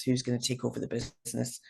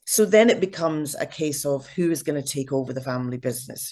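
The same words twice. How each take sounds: First: Dropped to a soft aside; quiet. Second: Said in the usual way. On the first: Real, not acted. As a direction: echo it softly, almost to yourself. Repeats the question, softer echo.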